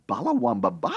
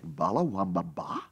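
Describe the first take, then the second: First: High, rising, baffled question; incredulous echo. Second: Low, soft, baffled repetition; puzzled echo. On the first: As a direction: repeat it higher, in mock disbelief. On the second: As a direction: echo it quietly to yourself in puzzlement. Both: Retold or imitated. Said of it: "And you think".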